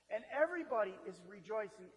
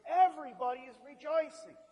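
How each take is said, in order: First: Said in the usual way. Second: Louder and higher, ringing joy; excited proclaiming. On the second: Shown as a demonstration. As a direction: proclaim it like good news. Repeated for emphasis.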